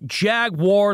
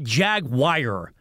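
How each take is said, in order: First: The ending sounds like the word 'war'. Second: The ending sounds like the word 'wire'. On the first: The speaker calls it right. "like Star Wars" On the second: The speaker calls it wrong. "Not Jag-wire"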